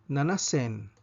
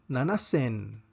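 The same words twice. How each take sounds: No difference in how they are said.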